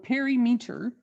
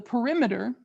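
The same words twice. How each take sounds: First: The 'meter' part is stressed. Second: The 'meter' part is unstressed.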